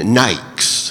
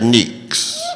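First: The vowel sounds like 'eye', giving 'nikes'. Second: The vowel sounds like 'ee', giving 'neeks'. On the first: The speaker calls it right. "Sure you mean Nikes" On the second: The speaker calls it wrong. "give us your neeks"

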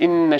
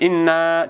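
First: The final 'na' is kept short. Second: The final 'na' is drawn out long. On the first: "в третьем аяте «Инна шаньяка» «на» не тянется" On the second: "В первом аяте «инна» тянется"

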